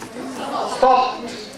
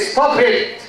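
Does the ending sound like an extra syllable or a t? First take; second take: t; extra syllable. First: The ending is a single t sound. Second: The ending is an extra syllable, id. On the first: The speaker calls it right. "Stop, stopped" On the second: The speaker calls it wrong. "We don't say stop it"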